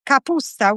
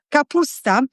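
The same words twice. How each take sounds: First: Capusta with a Southern Italian accent. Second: Said in the usual way. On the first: Real, not acted. Cook recalling her mother's dish, Southern Italian accent. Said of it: "said it with a Southern Italian". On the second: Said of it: "I don't know why I said it".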